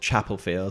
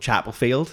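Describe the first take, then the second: First: It is said in a standard, neutral accent. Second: It is said in a local regional accent.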